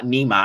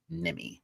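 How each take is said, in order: First: "Nima" said NEE-mah, long first vowel; wrong name pronunciation. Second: "Nimi" said NIM-ee; low, soft "Nimi" ending in an ee sound; correct name pronunciation. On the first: Streamer owning up to a mistake, "Nima" as NEE-mah. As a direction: open "ah" ending on "Nima", misread. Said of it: "I was wrong. I was calling". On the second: Streamer teaching chat a friend's name, "Nimi" as NIM-ee. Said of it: "It's Nimi". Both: Shown as a demonstration.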